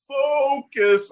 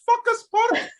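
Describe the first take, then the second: First: "focus" drawn out slowly with a long, round O; rounder focus. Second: "Focus" with a short, unrounded first vowel, like a swear word; mispronounced focus. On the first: Staff correcting wife's pronunciation, rounded focus. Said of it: "say focus a little more round". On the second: Retelling wife's slip to the room, mispronounced focus. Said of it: "need to say focus a little more round". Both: Retold or imitated.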